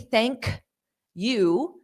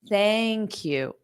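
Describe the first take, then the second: First: There is a pause after the k sound. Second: The k sound links straight into you. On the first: The speaker calls it wrong. "I have to put a pause because of that strong K sound" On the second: The speaker calls it right. "if I transfer the sound, ... I can say it without a pause"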